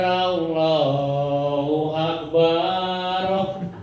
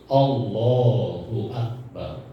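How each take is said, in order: First: The vowel after the b is drawn out long. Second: The vowel after the b is kept short. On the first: The speaker calls it wrong. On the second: The speaker calls it right.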